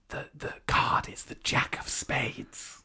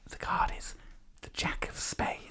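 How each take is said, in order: First: It is a louder, projected stage whisper. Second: It is whispered very quietly. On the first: "I'm going to stage whisper" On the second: "I might have whispered that a little too quiet for the mic"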